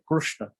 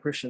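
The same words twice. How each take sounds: First: The first syllable has an 'ru' vowel sound. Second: The first syllable has an 'ri' vowel sound. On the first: "in South India we hear sometimes ... they say Krishna" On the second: "instead of saying Krishna"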